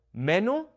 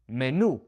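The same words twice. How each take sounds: First: "Menu" with the stress on NU, rising; Spanish "Menú" with final accent; stress on last syllable. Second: "menu" stressed on ME, falling; Spanish "menu" stressed first; stress on first syllable. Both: Shown as a demonstration. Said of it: "now it's menu instead of menu".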